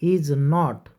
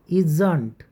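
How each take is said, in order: First: It is said as two full words. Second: It is said as one contracted word. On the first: "ते पुढं नॉट बघा तुम्ही" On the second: "तुम्ही याला इजंट असंही म्हणू शकतात"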